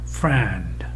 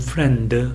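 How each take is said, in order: First: The vowel is loudest and the final consonants are weak. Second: Consonants are strong and the vowel is not prominent. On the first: "영에서는 friend, friend, 뜻 소리는 매우 약하게 들리죠" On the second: "우리말 같으면 friend 하면서 S 소리가 크게 들린다는 느낌이 별로 들지 않죠"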